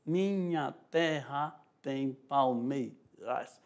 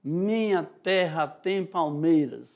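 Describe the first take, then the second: First: Very slow and quiet "Minha terra tem palmeiras", syllables split; slower, softer scansion. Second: Slow, syllable by syllable "Minha terra tem palmeiras"; slow scansion reading. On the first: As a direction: count each poetic syllable softly. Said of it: "O rais já é o som fraco". (escansão lenta e baixinha) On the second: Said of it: "Ele fala assim, ó". (leitura lenta marcando as sílabas) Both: Shown as a demonstration.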